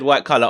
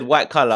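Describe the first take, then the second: First: It is said in a plain, ordinary accent. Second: It is said in a marked foreign accent. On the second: "with an accent"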